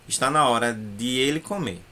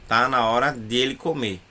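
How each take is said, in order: First: It is careful, with 'de' and 'ele' kept apart. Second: It is fast, with 'de ele' merged into 'dele'. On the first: "mas na verdade é de ele" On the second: "na hora que a gente fala rápido, dá a impressão de que a gente falou dele"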